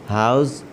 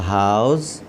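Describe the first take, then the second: No difference in how they are said.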